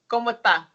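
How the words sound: It is Dominican Spanish with the final s dropped.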